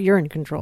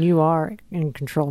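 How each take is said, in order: First: You are is shortened to one syllable. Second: You are is said as two full words. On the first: It can be misheard as a joke about urine. The speaker calls it wrong. "not you're in control" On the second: The listener is in charge of their health. The speaker calls it right. "you mean you are in control"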